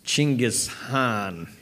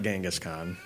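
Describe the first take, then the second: First: The name begins with a ch sound. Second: The name begins with a j sound. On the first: This is the correct pronunciation. The speaker calls it right. "it's Chinggis Khan" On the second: This is the common but mistaken pronunciation. The speaker calls it wrong. "It's not Genghis Khan"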